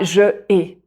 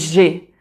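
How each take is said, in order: First: The vowel of je is fully pronounced. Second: The vowel of je is dropped. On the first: The speaker calls it wrong. "pas je ai" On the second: The speaker calls it right. "mais j'ai"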